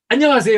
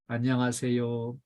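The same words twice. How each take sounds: First: It is said in a bright, cheerful voice. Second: It is said barely audibly and listlessly.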